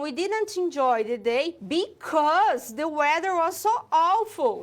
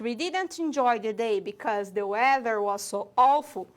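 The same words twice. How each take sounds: First: The word 'because' carries strong emphasis. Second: The sentence is said plainly, without special emphasis. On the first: It highlights the reason behind the outcome. "eu posso mostrar aí uma tônica" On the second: It just gives the information. "se eu falar simplesmente"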